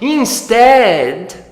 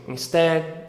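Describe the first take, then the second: First: It is said with lively, expressive intonation. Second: It is said flatly, like reading a list. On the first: The speaker calls it right. "você usou entonação, você usou movimento" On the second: The speaker calls it wrong. "ficar fazendo assim"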